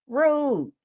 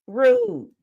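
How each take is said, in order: First: A deadpan, clipped verdict of Rude; flat rude. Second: Rude. squealed much higher in a put-on voice; the repeat goes up into a comic falsetto; mock shocked rude. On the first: Host judging the date in a deadpan tone. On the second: Host repeats her verdict in a high, squeaky mock voice. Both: Real, not acted.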